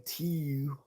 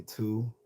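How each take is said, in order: First: "tiu" with a fronted ee-oo glide, pitched up; exaggerated Baltimore "tiu" for two; mock the local vowel in "tiu". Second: Said in the usual way. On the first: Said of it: "I don't say". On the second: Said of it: "I say".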